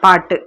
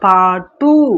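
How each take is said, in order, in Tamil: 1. கடைசி ஒலி குறைஞ்சு, பாதி நீளமா சொல்லப்படுது. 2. கடைசி ஒலி முழு நீளமா சொல்லப்படுது. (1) "இப்படிதான் சொல்லுவோம்" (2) "பாட்டு அப்படின்னு நம்ம முழுமையா சொல்ல மாட்டோம்"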